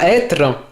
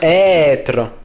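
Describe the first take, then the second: First: The first vowel is short. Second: The first vowel is long. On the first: The speaker calls it wrong. "on dit pas être" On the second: The speaker calls it right. "Il a la fonction d'allonger la voyelle"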